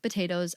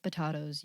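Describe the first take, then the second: First: Potatoes with an AY, puh-TAY-toes; American pronunciation. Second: Potatoes with an AH, puh-TAH-toes; British pronunciation. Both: Shown as a demonstration. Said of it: "it is the American British".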